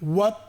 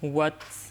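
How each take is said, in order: First: The final consonant ends with no breath release. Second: The final consonant ends with a light puff of breath. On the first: The speaker calls it wrong. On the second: The speaker calls it right.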